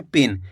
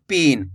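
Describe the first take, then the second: First: पिन said briskly with a short i; quick short vowel. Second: पिन with a long, drawn-out ee; stretched vowel. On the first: Teacher showing the correct reading, quick short vowel in पिन. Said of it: "तेजी के साथ उच्चारण निकालेंगे". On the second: Teacher showing how not to read it, stretched vowel in पिन. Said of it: "ऐसे नहीं पढ़ना". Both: Shown as a demonstration.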